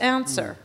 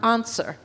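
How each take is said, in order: First: The word is said in the speaker's own accent. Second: The word is said in an imitated accent.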